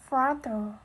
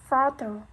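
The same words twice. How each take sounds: The two takes are said the same way.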